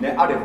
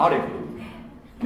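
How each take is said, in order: First: Said in the usual way. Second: アレフ stretched out very slowly, syllable by syllable; slow demo pronunciation. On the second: Shown as a demonstration. Teacher showing the class how to say a Hebrew letter, drawn out slowly. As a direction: draw out アレフ slowly so the class can copy it. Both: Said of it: "こう読みます".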